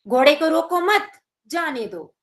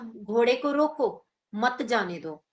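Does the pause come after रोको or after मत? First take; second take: after मत; after रोको. First: The pause comes after मत. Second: The pause comes after रोको.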